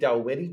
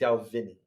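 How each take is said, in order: First: The second syllable begins with a W sound. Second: The second syllable begins with a V sound. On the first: "I always want to say Dalwhinnie" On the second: "I feel like it should be Dalvinnie"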